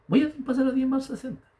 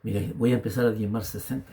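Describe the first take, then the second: First: High-pitched, held-up declaration; retold insistent resolve. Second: Said in the usual way. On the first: Husband retells insisting on his tithe to his wife, high and resolute. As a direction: insist on SESENTA in a high, sustained voice.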